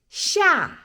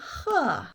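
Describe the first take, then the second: First: The syllable begins with an sh sound. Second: The syllable begins with an h sound. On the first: Someone is startled or frightened. "샤 놀았다 깜짝이야" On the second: Someone is scolding or shouting at another. "허는 호통하다 혼낼 때"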